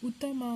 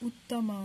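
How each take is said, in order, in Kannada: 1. ಮಧ್ಯದ t ಶಬ್ದ ಚಿಕ್ಕದು, ಒಂದೇ ಸಲ. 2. ಮಧ್ಯದ t ಶಬ್ದ ಹಿಡಿದು ಡಬಲ್ ಮಾಡಲಾಗಿದೆ. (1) "ಉತ್ತಮ ಅಂತ ಹೇಳಿಲ್ಲ" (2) "ತಾ ಅಕ್ಷರನ ಇಲ್ಲಿ ಒತ್ತಿ ಹೇಳಿದ್ದೀವಿ"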